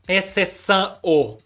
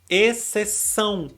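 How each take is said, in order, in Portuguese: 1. A vogal final soa como O. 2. A vogal final soa como U. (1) "Ninguém fala exceção o" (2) "o O do final da palavra a gente pronuncia com o som de U"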